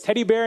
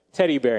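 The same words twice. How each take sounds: First: Teddy bear? asked with a high, hopeful rise; hopeful question. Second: Said in the usual way. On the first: Retold or imitated. Blind father hopefully asks his daughter, high rising question. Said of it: "So he says". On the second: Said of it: "And she's like".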